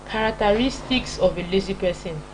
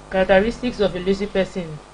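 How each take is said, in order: Both takes have the same delivery.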